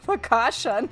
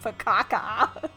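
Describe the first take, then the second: First: The last consonant sound is sh. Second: The last consonant sound is k. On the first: The speaker calls it right. "I know it's pronounced fakasha now" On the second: The speaker calls it wrong. "not fakaka"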